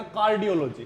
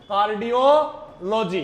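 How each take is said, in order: First: Said in the usual way. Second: cardiology drawn out slowly in parts; slow dictation. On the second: Shown as a demonstration. Teacher has students write the term down, slow dictation. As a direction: spell out cardiology slowly by sound for note-takers.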